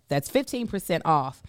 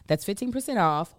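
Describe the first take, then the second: First: The phrase is said at a slower pace. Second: The phrase is said at a faster pace.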